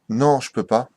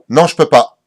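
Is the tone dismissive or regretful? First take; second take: regretful; dismissive. First: It sounds sad and regretful. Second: It sounds curt and dismissive. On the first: The person is genuinely sorry to miss it. "Le mec a les boules" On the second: The person does not care about the invitation. "tu as envie de dire quel enfoiré"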